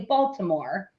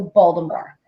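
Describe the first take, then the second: First: It is said the way outsiders say it. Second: It is said the way Baltimore locals say it.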